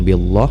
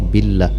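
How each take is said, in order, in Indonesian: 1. Bunyi L-nya tebal dan penuh. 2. Bunyi L-nya tipis dan ringan. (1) "jangan billah" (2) "dibaca tarqiq ataupun dibaca tipis"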